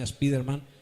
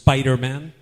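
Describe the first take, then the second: First: The name is pronounced with Spanish sounds. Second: The name is pronounced with English sounds. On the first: "como dicen en España" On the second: "En inglés es"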